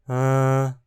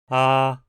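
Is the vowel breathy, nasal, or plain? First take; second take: breathy; plain. First: The vowel is murmured with extra breathy air. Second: The vowel is plain and fully oral. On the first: "de forma murmurada" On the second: "a forma plena"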